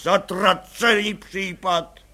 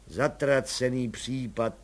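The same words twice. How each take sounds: First: Důrazně a pomalu, Zatracený hlasitě; zaklít to nahlas do kanceláře; hlasité nadávání. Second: Dopálené mumlání. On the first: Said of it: "nadával pan Bartošek". (komisař nahlas nadává na nalezince) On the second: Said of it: "říkal si dopáleně". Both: A narrator's reading.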